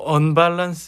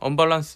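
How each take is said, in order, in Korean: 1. 첫 음절에 강한 악센트가 있어요. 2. 첫 음절에는 특별한 악센트가 없어요. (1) "악센트가 앞에 있잖아요" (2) "그냥"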